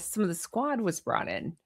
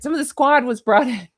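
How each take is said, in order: First: It is said in a hushed, secretive way. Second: It is said in a plain, open way.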